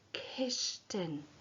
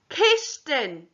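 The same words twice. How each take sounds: First: The word is said quietly. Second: The word is said loudly. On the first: "Now say it Gacuan, quietly" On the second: "Now say it loudly. Os ord"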